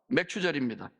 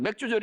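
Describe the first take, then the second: First: The middle syllable is said with a 'chu' sound. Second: The middle syllable is said with a 'ju' sound. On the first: It names the harvest feast. The speaker calls it right. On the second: It sounds like a feast of beer. The speaker calls it wrong. "맥주절이 아닙니다"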